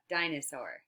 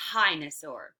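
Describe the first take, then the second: First: Said in the usual way. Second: 'hinosaur' begun with an aspirated h; wrong first sound. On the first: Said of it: "Thumbs down if it's a d". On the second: Shown as a demonstration. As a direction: swap the d for an h in 'hinosaur'. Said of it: "Thumbs up if it's a".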